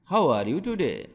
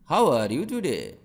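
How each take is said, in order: Both takes have the same delivery.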